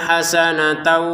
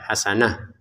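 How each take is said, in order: First: The word ends in an 'atan' sound. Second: The word ends in an 'ah' sound. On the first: The reading continues into the next word. "Kalau digabungkan menjadi tak lagi" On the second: The reading stops at this word. "kita baca hasanah karena memang kita berhenti"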